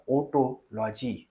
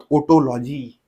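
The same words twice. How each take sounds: First: otology drawn out very slowly, syllable by syllable; slowly enunciated for the class; slow, spelled-out term. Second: Said in the usual way. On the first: Shown as a demonstration. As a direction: stretch otology out so students catch it. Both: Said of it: "काय म्हणतात?".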